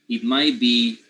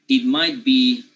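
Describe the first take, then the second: Both takes have the same delivery.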